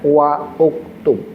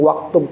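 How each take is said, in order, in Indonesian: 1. Wa dan uktub diucapkan sebagai kata terpisah. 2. Wa disambung dengan kata berikutnya. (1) "asal katanya kalau mau dibaca jenreknya wa uktub" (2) "maunya dicepetin aja, langsung aja waktub"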